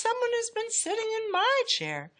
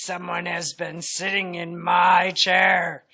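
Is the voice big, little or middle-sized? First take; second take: middle-sized; big. First: It is said in a middle-sized voice. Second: It is said in a great big voice.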